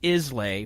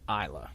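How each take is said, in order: First: The word ends with a 'lay' sound. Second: The word ends with a 'la' sound. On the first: This is how the spelling suggests it is said. The speaker calls it wrong. "it looks like Islay" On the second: This is how the name is actually said. The speaker calls it right. "but it is pronounced Isla"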